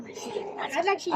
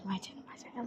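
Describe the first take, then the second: First: Slow whispered repeat. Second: Said in the usual way. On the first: Real, not acted. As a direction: breathe it out slowly, whispering. Kid claiming the channel.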